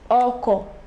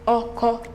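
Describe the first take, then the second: First: The tone goes from mid to low. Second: Both syllables are on a mid tone. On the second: "Re, Re"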